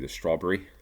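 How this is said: It is said in an English accent.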